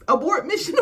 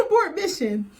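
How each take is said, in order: First: High, loud panicked call; mock panic, high and loud; frantic plea. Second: High, loud, breaking into laughter; high, loud abort mission said while laughing; laughing plea. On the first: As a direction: sound the alarm to stop her. Princess urges friend to stop. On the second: Retold or imitated. Repeated with laughter.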